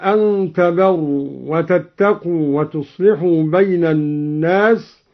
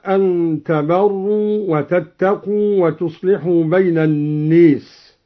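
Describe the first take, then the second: First: Said in the usual way. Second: الناس with the alif bent toward e, naes; imala on الناس. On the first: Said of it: "بإمالة ألف الناس". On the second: Shown as a demonstration. Teacher demonstrating imala in الناس. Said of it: "بإمالة ألف الناس هكذا".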